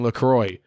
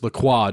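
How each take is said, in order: First: The name is said with an English pronunciation. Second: The name is said with a French pronunciation. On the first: The speaker calls it wrong. "It's not fucking LaCroix" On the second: The speaker calls it right. "It's LaCroix. Just because you're not French doesn't mean you can change the fucking pronunciation"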